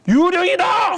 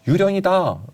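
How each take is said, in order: First: It is shouted in a lively, startled manner. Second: It is read in a calm, even newsreader manner. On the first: The speaker calls it right. "좀 다이나믹하게 읽는다면 ... 막 너무 놀래가지고" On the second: The speaker calls it wrong. "아나운서답게 읽으셨잖아요"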